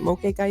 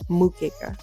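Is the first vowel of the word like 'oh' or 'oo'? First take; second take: oh; oo. First: The first vowel sounds like 'oh'. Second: The first vowel sounds like 'oo'. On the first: The speaker calls it wrong. "I think I said mokeka yesterday" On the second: The speaker calls it right. "but I believe it's mukeka"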